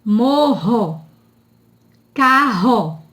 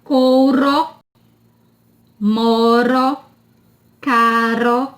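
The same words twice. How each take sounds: First: MORRO and CARRO with an H-like strong R. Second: MORO and CARO with one tapped R; weak R. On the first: Teacher showing two Rs between vowels, breathy strong R. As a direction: say "carro" as "KA-ho", slowly. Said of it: "som forte". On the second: Teacher contrasting one R with two, tapped weak R. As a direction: say "caro" as "KA-ro", R lightly flicked. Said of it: "som fraco". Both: Shown as a demonstration.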